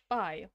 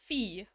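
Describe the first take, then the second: First: The word rhymes with fly. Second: The word rhymes with fee. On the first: "like fly" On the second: "like fee"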